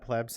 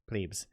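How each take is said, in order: First: The word is said as one short syllable. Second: The word is said with a long vowel ending.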